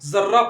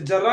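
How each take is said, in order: First: The word begins with a z sound. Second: The word begins with a plain j sound. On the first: The speaker calls it right. "इसे जर्रा पढ़ेंगे, क्योंकि ये रॉ पर रेफ है और ज में नुक्ता लगा हुआ है" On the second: The speaker calls it wrong. "इसे जर्रा नहीं पढ़ेंगे"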